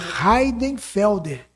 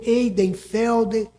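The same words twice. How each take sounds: First: The name begins with a breathy H sound. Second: The name begins directly with a vowel. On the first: The speaker calls it right. "pronunciar o meu nome da maneira correta, que é" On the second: The speaker calls it wrong. "tem gente que vai ler"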